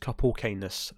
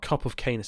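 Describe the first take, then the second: First: The word 'of' is reduced to a short 'o'. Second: The word 'of' is said in full. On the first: The speaker calls it right. "it's cup of kindness. ... It's a Scottish song, say it right" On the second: The speaker calls it wrong. "They said of, not all. It's not cup of kindness"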